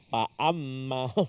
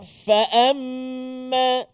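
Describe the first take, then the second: First: The first sound is a closed p without air. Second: The first sound is an f with escaping air. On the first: The speaker calls it wrong. "angin dia tak keluar" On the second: The speaker calls it right. "dirapatkan dengan gigi atas bahagian depan"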